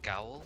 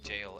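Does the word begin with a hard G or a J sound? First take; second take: hard G; J sound. First: The word begins with a hard G sound. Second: The word begins with a J sound. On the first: The speaker calls it wrong. "I used to say it Gaol" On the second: The speaker calls it right. "they were all saying it jail"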